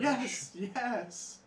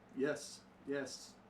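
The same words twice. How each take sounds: First: It sounds excited and eager. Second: It sounds calm and merely agreeing.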